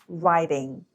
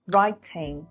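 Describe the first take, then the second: First: The middle sound is a quick d. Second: The middle sound is a clear t.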